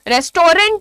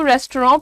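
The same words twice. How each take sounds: First: The last syllable is a full 'rent'. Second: The last syllable is reduced, without 'rent'. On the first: The speaker calls it wrong. "भैया रेंट नहीं होता है, रेस्टोरेंट बोलना इसीलिए गलत होता है" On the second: The speaker calls it right. "रेस्टोरेंट pronounce ही किया जाता है"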